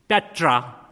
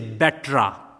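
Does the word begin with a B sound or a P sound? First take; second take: P sound; B sound. First: The word begins with a P sound. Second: The word begins with a B sound. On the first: "If they are pronouncing word like Petra" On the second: "they will say Betra"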